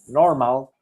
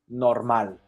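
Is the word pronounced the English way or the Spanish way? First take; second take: English; Spanish. First: The word is pronounced the English way. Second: The word is pronounced the Spanish way. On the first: "in English we will say normal" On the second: "Spanish we will say normal"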